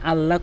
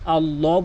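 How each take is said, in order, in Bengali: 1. L হালকা ও পাতলাভাবে উচ্চারণ করা হয়। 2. L ভারী ও মোটাভাবে উচ্চারণ করা হয়। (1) "এখানে আল্লাহ কখনোই বলা যাবে না" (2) "আল্লাহ বলতে হবে ... পুর করে বলতে হয়"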